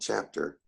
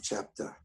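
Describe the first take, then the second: First: The final R sound is pronounced. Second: The final R sound is dropped. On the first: "instead of saying chapter" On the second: "why do you drop all your, your R's at the end of the word?"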